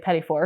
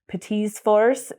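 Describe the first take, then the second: First: It is said with an American pronunciation. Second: It is said with a French pronunciation. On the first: Only the ending is treated as plural. "so Americanized, we say" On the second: Both words are treated as plural. "is the correct way to say it"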